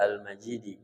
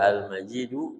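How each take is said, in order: First: The word ends with an i vowel. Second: The word ends with a u vowel. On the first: The word is read in the genitive case. "boleh dibaca Al-Majidi" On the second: The word is read in the nominative case. "Ini boleh dibaca Al-Majidu"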